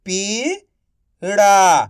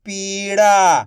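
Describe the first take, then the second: First: Slow stretched reading. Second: Said in the usual way. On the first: Shown as a demonstration. Teacher to pupils, slowly stretched. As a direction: draw पीड़ा out slowly. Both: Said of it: "आप इस तरीके से".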